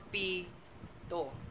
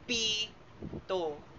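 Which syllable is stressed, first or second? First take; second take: first; first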